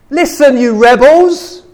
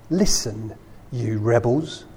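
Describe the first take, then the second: First: It is said in an angry tone. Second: It is said in a calm reading tone.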